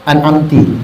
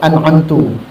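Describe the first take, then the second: First: The word ends in the vowel i. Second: The word ends in the vowel u. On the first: "Mulutnya dibaca an'amtu, an'amti. Tak boleh" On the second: "Mulutnya dibaca an'amtu, an'amti. Tak boleh"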